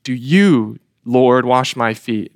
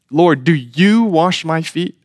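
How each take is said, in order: First: Emphatic question with you stressed. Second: YOU pushed up in pitch and leaned on; rising question with you stressed. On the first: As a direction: Do you said with weight, Lord set apart after it. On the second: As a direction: lean on the word you in Lord, do you wash my feet. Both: Shown as a demonstration. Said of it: "there's an emphasis there in, in you".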